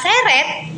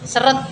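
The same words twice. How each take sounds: First: The first vowel is a clear e sound. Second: The first vowel is a weak schwa sound. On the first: Pulled by force. "Sedangkan seret itu ditarik dengan paksa" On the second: Not flowing smoothly. "seret seret itu tidak lancar"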